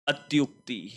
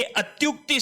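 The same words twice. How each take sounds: First: अत्युक्ति repeated quietly, with the first vowel अ; softer repeat. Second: अत्युक्ति said clearly, with the first vowel अ; teacher stating the right form of अत्युक्ति; correct word stated. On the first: Teacher repeats the correct word softly for the students. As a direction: echo अत्युक्ति softly to fix it in memory. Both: Shown as a demonstration. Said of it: "ये अत्युक्ति शब्द होगा".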